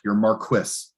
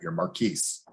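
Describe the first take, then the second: First: The name is said in an altered way. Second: The name is said its usual way. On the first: The speaker calls it wrong. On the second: The speaker calls it right.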